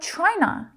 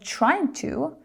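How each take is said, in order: First: The words are run together into one reduced word. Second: The two words are said fully and separately.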